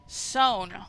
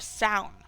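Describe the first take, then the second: First: The vowel does not rhyme with 'down'. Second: The vowel rhymes with 'down'.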